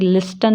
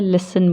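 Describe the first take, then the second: First: The t sound is pronounced. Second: The t sound is silent. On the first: The speaker calls it wrong. "लिस्टन नहीं बोलते हैं" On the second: The speaker calls it right. "लिसन बोलते हैं"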